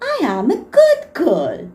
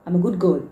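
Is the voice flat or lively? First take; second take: lively; flat. First: It is said lively and animated, as to children. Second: It is said flat and robotic, without emotion. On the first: "बच्चे कैसे बोलेंगे?" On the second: "that sounding very robotic"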